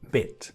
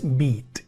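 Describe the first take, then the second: First: The vowel is a short sound between i and e. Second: The vowel is a long, clear ee sound. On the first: The speaker calls it right. "Es una I, pero muy breve" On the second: The speaker calls it wrong. "no es"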